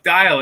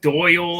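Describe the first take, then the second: First: The name is said to rhyme with 'dial'. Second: The name is said to rhyme with 'Doyle'. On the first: The speaker calls it right. "look, the sundial, like dial" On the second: The speaker calls it wrong. "I get so many different ones"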